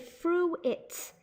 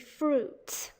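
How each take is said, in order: First: The I is sounded, giving two syllables. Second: The I is silent, giving one syllable. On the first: The speaker calls it wrong. "they sometimes say" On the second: The speaker calls it right. "the eye is silent"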